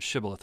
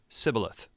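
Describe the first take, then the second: First: The word begins with a 'sh' sound. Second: The word begins with an 's' sound. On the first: The speaker is not from the outsider group. "you had to be able to pronounce the word Shibboleth" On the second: The speaker is from the outsider group. "the Ephraimites don't have the SH sound in their vocabulary, so they would say Shibboleth"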